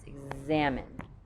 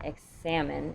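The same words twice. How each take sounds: First: The x ends in a z sound. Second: The x ends in an s sound. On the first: The speaker calls it right. "it's going to end with a Z sound" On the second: The speaker calls it wrong. "it's not examine"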